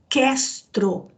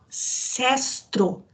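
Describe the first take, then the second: First: The word begins with a K sound. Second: The word begins with an S sound. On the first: The speaker calls it right. "na verdade a, a pronúncia é Questro, com K" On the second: The speaker calls it wrong. "Emmanuel chama de Sestro"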